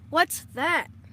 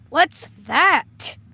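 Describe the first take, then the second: First: It is said without yelling. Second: It is yelled loudly.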